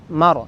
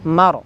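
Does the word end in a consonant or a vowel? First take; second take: consonant; consonant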